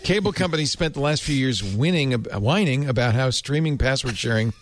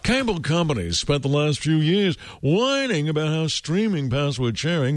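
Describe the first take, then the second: First: It is read in a plain, ordinary voice. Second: It is read in a pompous, put-on voice.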